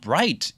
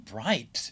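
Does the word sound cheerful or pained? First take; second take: cheerful; pained. First: It is said cheerfully, with bright excitement. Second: It is said wincingly, as if dazzled. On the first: Something is pleasantly bright and uplifting. "되게 밝은, 어, wow, bright 이렇게 할 수 있고" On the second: Something is so bright one wants to avoid it. "too bright 이럴 수, 태양을 피하고 싶었어 느낌"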